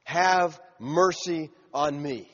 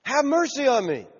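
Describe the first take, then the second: First: Slow, deliberate reading of a plea; understated, unhurried cry for mercy; measured quoted plea. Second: High-pitched acted cry for mercy; raised-voice beggar's plea; yelled plea. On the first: Retold or imitated. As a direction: draw out each word at usual pitch. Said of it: "And so he cried out". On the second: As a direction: call out pleadingly, pitch well up. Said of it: "He just yelled loud".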